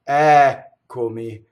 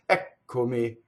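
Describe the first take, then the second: First: The first vowel is held long before the double consonant. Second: The first vowel is clipped short before the double consonant. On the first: The speaker calls it right. "the accent is on the first syllable" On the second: The speaker calls it wrong. "the singer will shorten the first like this"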